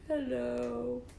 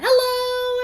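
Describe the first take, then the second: First: It is said in a sad voice. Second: It is said in a happy voice.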